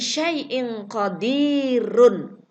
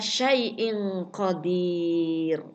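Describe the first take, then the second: First: The last word ends with a short vowel sound. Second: The last word ends on a silent r sound. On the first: The reading continues without stopping. "Ketika kalimat ini dibaca tidak wakof" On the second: The reader stops at this word. "Tapi ketika wakof"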